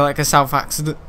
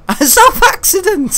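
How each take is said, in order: First: Said in the usual way. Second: High, loud, drawn-out laughing echo; incredulous laughter, pitched way up; laughing at own slip. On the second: Real, not acted. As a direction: crack up while repeating your own blunder.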